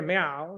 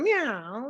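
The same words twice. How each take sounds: First: Wrong meow. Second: "Meow" slid up high with a rising tune; right meow. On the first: Teacher showing students the wrong meow, low. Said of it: "No, I didn't go". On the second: Teacher demonstrating the right meow, high and rising. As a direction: sweep "Meow" upward like a cat. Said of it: "I went". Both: Shown as a demonstration.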